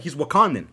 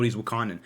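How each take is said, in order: First: A light put-on white guy voice, a bit louder; white dude voice. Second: Said in the usual way. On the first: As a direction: play it like a polite white dad on the phone. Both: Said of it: "I was doing the whole white voice".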